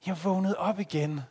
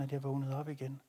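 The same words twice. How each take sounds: First: "op" stressed, higher, back to full voice; emphatic repeat. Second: Much softer, "vågnede op igen" falling away; hushed wonder. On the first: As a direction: state it again with weight. (eftertryk på "op igen") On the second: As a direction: murmur it in awe. (stille undren over "vågnede op igen") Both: Acted.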